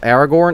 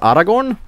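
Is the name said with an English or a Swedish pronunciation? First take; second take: English; Swedish. First: The name is said with an English pronunciation. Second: The name is said with a Swedish pronunciation.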